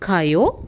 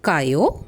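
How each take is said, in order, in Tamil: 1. இது கேள்வியாகச் சொல்லப்படுகிறது. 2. இது கேள்வியாகச் சொல்லப்படுகிறது.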